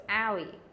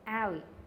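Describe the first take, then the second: First: The stress is on the first syllable. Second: The same.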